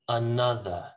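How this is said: It is said in a British accent.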